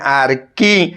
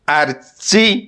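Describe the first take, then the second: First: The 'ch' is sounded like 'k' in kite. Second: The 'ch' is sounded like 'ch' in chair. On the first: The speaker calls it right. "एटा आर्किटेक्चर नुहे आर्की" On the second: The speaker calls it wrong. "बहुत पिला आकु पढ़ंती"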